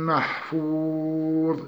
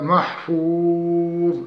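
First: محفوظ stretched and cut off with no tanween; recited pause on محفوظ. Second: محفوظ ended on a stop, no tanween; pause form محفوظ. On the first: Teacher chants the verse ending محفوظ. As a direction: chant محفوظ long and stop. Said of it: "يحذف التنوين". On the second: Teacher showing how to stop on محفوظ. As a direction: stop on محفوظ without the nun. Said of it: "ونقف على محفوظ". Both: Shown as a demonstration.

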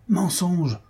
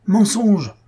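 First: First "Mensonge" pitched high and sharp; hostile crowd cry. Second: "mensonge" shouted very high and much louder; second "mensonge" bursts out as a furious yell; angry mob shout. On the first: Brahmans reject his defense, high accusing cry. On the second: Brahmans shout down Devadatta's defense, furious yell. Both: Acted. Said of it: "répétèrent les brahmanes".

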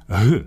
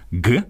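First: «г» said as a breathy h rather than a hard g; airy h for «г»; breathy h sound. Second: «г» said as the voiced plosive g; a hard g, as in the letter ґ, for «г». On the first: Host to listeners, demonstrating the contrasting h sound. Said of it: "а в яких глухий". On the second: Host to listeners, demonstrating the voiced g. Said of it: "має звучати дзвінкий звук". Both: Shown as a demonstration.

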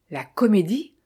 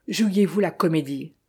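First: Mildly stunned, rising echo of comédie. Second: Said in the usual way. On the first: A narrator's reading. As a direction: repeat comédie with a light astonished rise. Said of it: "stupéfait par l'acuité d'esprit". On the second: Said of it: "stupéfait".

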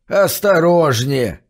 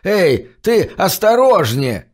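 First: Put-on slow, wheezy old man warning; wheezing. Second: Slow, higher wheezing call; wheezy shout. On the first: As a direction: rasp it out slowly, a touch higher. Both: A narrator's reading. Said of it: "просипел он".

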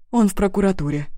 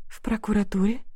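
First: Said in the usual way. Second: Startled frightened echo, rising. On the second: A narrator's reading. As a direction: repeat it in sudden fear. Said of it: "Испуганно".

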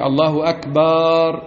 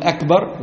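First: الله أكبر with akbaar, long drawn a; mock the wrong lengthened أكبر; wrong drawn vowel. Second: أكبر said short, akbar; plain correct أكبر; correct short vowel. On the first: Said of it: "وليس كما نسمع من بعض العلماء". (نطق خاطئ بمد أكبر) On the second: Shown as a demonstration. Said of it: "وتقول". (نطق صحيح بلا مد)

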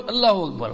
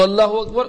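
First: اللہ اکبر with a falling end on اکبر; second takbir. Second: اللہ اکبر with a rising end on اکبر; quick, firm اللہ اکبر, tune left open; first takbir. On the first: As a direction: demonstrate اللہ اکبر as the second of two, closing on a fall. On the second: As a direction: demonstrate اللہ اکبر as the first of two, lifting اکبر. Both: Shown as a demonstration. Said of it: "فوراً چلے جاؤ".

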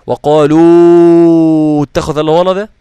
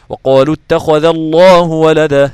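First: وقالوا اتخذ الله ولدا recited slowly and loudly with a wrongly stretched madd; wrong elongation. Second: وقالوا اتخذ الله ولدا recited slowly and loudly with no extra madd; correct recitation. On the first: Teacher showing students a reading that never happens, stretched wrongly. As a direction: draw out وقالوا as if it were a heavy madd. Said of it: "لم يحدث". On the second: Teacher giving students the correct recitation. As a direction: recite وقالوا اتخذ cleanly, no added stretch. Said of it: "هكذا". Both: Shown as a demonstration.

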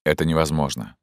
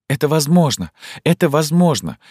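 First: Said in the usual way. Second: "Это возможно!" cried out much higher and louder; desperate outcry. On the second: Acted. Zhenya protests his refusal, desperate and loud. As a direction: fling it back at him, pleading.

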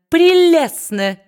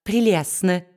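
First: Much higher, louder and slow; shrieked slow gush of flattery; gushing squeak. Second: Said in the usual way. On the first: A narrator's reading. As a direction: stretch it into a fawning squeal. Brass flatters Quilp.

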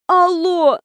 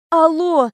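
First: High, wheezed hello; a faked sick croak; wheezing. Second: Groaned out, pitch higher; a sick person's groan down the phone; moaning. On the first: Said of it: "прохрипела я". (прохрипеть) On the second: Acted. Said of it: "простонала я". (со стоном)

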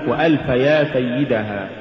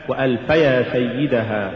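First: وألف يا سيدها broken into separate words; وألف يا سيدها with يا standing apart; wrongly split word. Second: Said in the usual way. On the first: Shown as a demonstration. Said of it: "فصل الكلمة". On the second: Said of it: "والصواب وألف يا سيدها".

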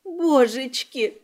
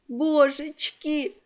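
First: Slow tearful wail of a frightened maid; a slow broken cry of Божечки, voice changed by tears; sobbing, drawn out. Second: Sobbed. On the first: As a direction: drag the word out through sobs. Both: Acted. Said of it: "всхлипнула Салли".

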